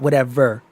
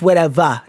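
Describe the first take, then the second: First: The word ends with an 'er' sound. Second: The word ends with an 'ah' sound. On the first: This does not match the regional accent. The speaker calls it wrong. "not whatever" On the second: This matches the old-timey Midwestern accent. The speaker calls it right. "like that Midwestern old timey accent, it's whatever"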